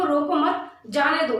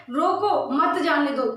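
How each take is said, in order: First: रोको मत joined, then जाने दो apart; no break till after मत; pause after मत. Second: रोको alone, then मत जाने दो as one; pause after रोको. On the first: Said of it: "अगर इसको हटा देते हैं विराम को". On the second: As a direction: break straight after a stressed रोको. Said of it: "और अगर यहाँ लग गया था". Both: Shown as a demonstration.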